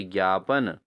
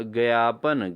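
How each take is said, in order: First: ज्ञापन with joined "gyaa", pitched lower; correct pronunciation. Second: ज्ञापन split as "ga-yaa-pan"; wrong pronunciation. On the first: Teacher answers for students, ज्ञापन as "gyaapan". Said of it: "तो इसका क्या होना चाहिए?". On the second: Teacher shows students the error, ज्ञापन as "gayaapan". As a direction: add a vowel after g in ज्ञापन. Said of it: "अशुद्ध है". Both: Shown as a demonstration.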